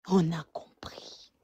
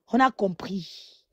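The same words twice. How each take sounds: First: Soft slow whisper. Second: Said in the usual way. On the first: Real, not acted. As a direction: breathe it out, no voice. Repeated, second take whispered.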